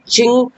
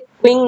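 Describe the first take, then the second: First: The word begins with a 'ch' sound. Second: The word begins with a 'kw' sound. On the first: The speaker calls it right. "चिंग हाउसू बोलते हैं" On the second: The speaker calls it wrong. "इसे क्विंग ना"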